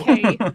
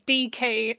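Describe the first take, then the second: First: It sounds like one smooth word, normally stressed. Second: It sounds like two separate letters, first stressed. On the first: The speaker calls it right. "and not decay" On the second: The speaker calls it wrong. "I heard that as two separate letters, D K ... putting the emphasis on the wrong syllable"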